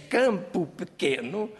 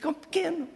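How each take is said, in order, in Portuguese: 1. As vogais são pronunciadas plenamente e com clareza. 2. As vogais são reduzidas e engolidas. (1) "em vez de dizermos" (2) "Nós comemos as vogais"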